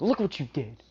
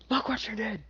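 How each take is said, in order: First: Mock angry scolding, pitched up; acted indignant rebuke, a bit louder; scolding outburst. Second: Mock outraged screech, way up high; acted indignation at a high pitch; high-pitched scolding. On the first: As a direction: scold them for upsetting your child. Father scolds those who upset child. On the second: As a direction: squeal the rebuke in a high put-on voice. Repeats the scolding, much higher.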